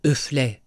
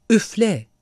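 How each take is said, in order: First: Low-key, stern command; stern, controlled insistence; harder, sterner voice. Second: Higher-pitched, firm order; a raised, commanding call. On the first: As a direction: order it firmly without raising the voice. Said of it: "Daha katı bir sesle". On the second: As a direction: order it in one short burst. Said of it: "diye emretti". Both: A narrator's reading.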